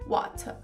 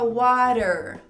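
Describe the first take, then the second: First: The middle consonant is a clear T sound. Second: The middle consonant is a quick flap, like D. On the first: "Em inglês britânico, eles diriam water" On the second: "no inglês norte-americano, já vira aquele R"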